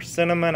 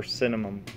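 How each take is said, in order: First: "cinnamon" ending in N rather than M; final N in cinnamon. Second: "cinnamon" pronounced "cinnamum"; final M in cinnamon. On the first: Vlogger humoring those who prefer "cinnamon" with final N. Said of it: "I'll say it that way". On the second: Vlogger giving his preferred form, "cinnamon" with final M. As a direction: close "cinnamon" on an M. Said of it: "Today I prefer cinnamon". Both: Shown as a demonstration.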